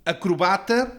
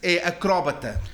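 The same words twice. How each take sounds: First: "acrobata" stressed on ba; modern acrobata. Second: "acróbata" stressed on cró, slowly; original acróbata. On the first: Learner gives the usual pronunciation. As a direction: say "acrobata" with stress on the third syllable. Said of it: "vou dizer". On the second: Learner gives the original stress. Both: Shown as a demonstration.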